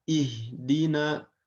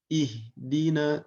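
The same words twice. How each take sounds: The two takes are said the same way.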